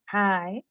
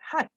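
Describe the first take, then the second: First: The vowel in the word is drawn out. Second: The vowel in the word is short. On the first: The speaker calls it right. "the I sound in hi is extended to show that Jane is very pleased" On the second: The speaker calls it wrong. "not hi"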